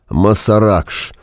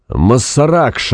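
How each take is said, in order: First: Said in the usual way. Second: Drawn-out mild yell; yelled curse. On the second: A narrator's reading. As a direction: stretch it out to carry over noise. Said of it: "орал Фанк, стараясь перекричать шум". (протяжный, сдержанно сыгранный крик)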